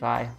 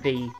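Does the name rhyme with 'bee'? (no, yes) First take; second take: no; yes. First: The name does not rhyme with 'bee'. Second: The name rhymes with 'bee'. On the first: The speaker calls it wrong. "I'm pronouncing the name Vi" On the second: The speaker calls it right. "it's V, because it rhymes with B"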